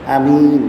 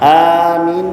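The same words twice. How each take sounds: First: The first vowel is kept short. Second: The first vowel is drawn out long.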